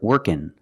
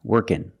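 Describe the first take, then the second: Both takes have the same delivery.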